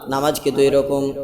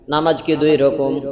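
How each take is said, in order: No difference in how they are said.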